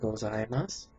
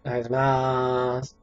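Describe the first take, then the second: First: Every syllable is pronounced clearly and fully. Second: It is clipped so mainly the final mas is heard. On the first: "I try to enunciate my words a little bit" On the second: "Or more like, gozaimasu, you only hear mas"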